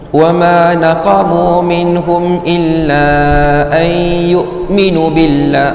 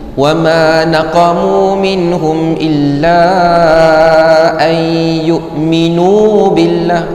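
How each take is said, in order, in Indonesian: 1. Vokal akhir pada yu'minu dibaca pendek. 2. Vokal akhir pada yu'minu dibaca panjang. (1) "tersalah cepat sangat ... itu terhilang satu waw" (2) "Minu nu tu dua harakat"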